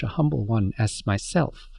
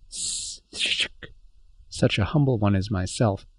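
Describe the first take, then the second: First: Said in the usual way. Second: Stumbling over the syllables, s- sh- such; halting stammered repeat. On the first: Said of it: "the proprietor said". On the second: Acted. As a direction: haltingly repeat "such a humble one as myself". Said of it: "those syllables".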